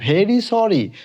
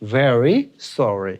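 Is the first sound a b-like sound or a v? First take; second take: b-like; v. First: The first sound is a b-like stop. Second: The first sound uses teeth on lip. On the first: The speaker calls it wrong. "আমরা বলি ভেরি sorry" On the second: The speaker calls it right. "না উচ্চারণটা হবে ভেরি sorry"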